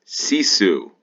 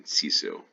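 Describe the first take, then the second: First: Reading the sign out. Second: Puzzled question. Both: Real, not acted.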